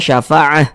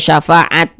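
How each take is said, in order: First: The word ends in an h sound. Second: The word ends in a stopped t sound. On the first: The speaker calls it right. "Kita berhenti di huruf ta ini, kita baca syafa'ah, huruf ha yang berfungsi" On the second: The speaker calls it wrong. "Jangan dibaca syafaat, jangan"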